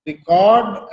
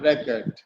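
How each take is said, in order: First: "record" stressed on the second syllable, re-CORD; record as a verb. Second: "record" stressed on the first syllable, REC-ord; record as a noun. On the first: Teacher showing students the verb, "record" said re-CORD. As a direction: say "record" as re-CORD, long full second vowel. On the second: Teacher showing students the noun, "record" said REC-ord. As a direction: say "record" as REC-erd, weak second syllable. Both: Shown as a demonstration. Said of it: "pronouncing the word in two different ways".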